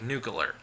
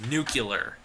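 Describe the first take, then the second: First: The word is said quickly with syllables slurred together. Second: The word is said carefully with clear syllables. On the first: "When I say it fast, it sounds like nuclear" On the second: "I know it's nuclear"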